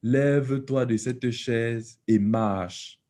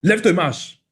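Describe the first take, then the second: First: It is said very slowly. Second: It is said quickly.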